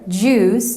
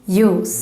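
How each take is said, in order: First: The word begins with an English j sound. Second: The word begins with a y sound.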